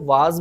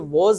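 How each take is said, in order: First: The vowel is an open 'ah' sound. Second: The vowel is a rounded 'aw' sound. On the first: "कुछ लोग इसको वाज बोलते हैं, so वाज ना बोलिए" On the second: "हम जो ये वॉज है"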